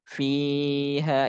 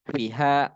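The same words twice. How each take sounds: First: The first vowel is drawn out long. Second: The first vowel is said short. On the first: The speaker calls it right. "Dia harus panjang" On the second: The speaker calls it wrong. "Nggak boleh pendek"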